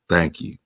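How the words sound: It is said in a very low, deep voice. "too baritone"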